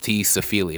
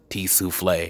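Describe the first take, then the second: First: The name is said as Safili. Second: The name is said as Souffle. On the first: The speaker calls it right. "it's T. Safili" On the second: The speaker calls it wrong. "not T. Souffle"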